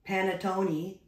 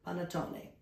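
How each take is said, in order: First: It is said with a plain, flat English accent. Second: It is said with a mild, half-Italian accent. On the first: "but I will not say panettone either" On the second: "I'll take the middle"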